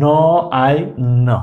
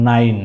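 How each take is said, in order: First: ন, আই, ন as three separate sounds; phonetic sounding out. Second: Said in the usual way. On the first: Shown as a demonstration. Teacher matching nine to its sounds for pupils, said separately. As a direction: sound out ন... আই... ন, pausing between. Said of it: "phonetic sound অনুসারে মিলাই". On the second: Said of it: "কি হয়?".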